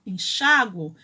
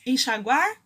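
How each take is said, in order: First: "enxáguo" with a strong xá, falling; stress on xá. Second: "Enxaguar" stressed on guar, rising; stress on the last syllable. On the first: Teacher contrasting enxáguo with enxaguar, stress on xá. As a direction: hit the xá in "enxáguo". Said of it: "mas enxáguo tem". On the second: Teacher contrasting enxaguar and enxáguo, stress on guar. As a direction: put the weight on the end of "Enxaguar". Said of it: "Perceberam que enxaguar não tem acento". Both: Shown as a demonstration.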